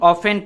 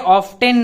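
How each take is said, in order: First: The t sound is left out entirely. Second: The t sound is pronounced in the middle. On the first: The speaker calls it right. "टी वो silent होगा, इससे हम ऑफेन पढ़ेंगे" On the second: The speaker calls it wrong. "ये ऑफ टेन नहीं होगा।"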